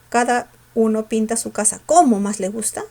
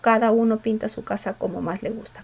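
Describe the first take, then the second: First: The word 'como' is said with extra force. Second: The word 'como' is said without extra force. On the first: The speaker calls it wrong. "Con fuerza" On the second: The speaker calls it right. "sin ella"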